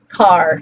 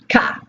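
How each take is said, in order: First: The final r sound is clearly pronounced. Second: The final r sound is dropped entirely. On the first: This is how a typical standard English speaker says it. "a typical English speaker might say, standard English might say the word car" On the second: This is how someone from Boston says it. "someone from Boston might say ka"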